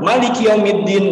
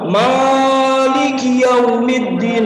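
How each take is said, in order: First: The first vowel is cut too short. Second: The first vowel is held too long. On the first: "Bukan juga langsung" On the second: "Ada yang panjang"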